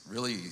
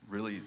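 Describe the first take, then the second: No difference in how they are said.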